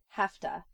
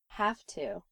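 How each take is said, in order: First: The words run together into one reduced form. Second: Both words are pronounced fully and separately.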